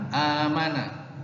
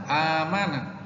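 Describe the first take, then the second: The two takes are said the same way.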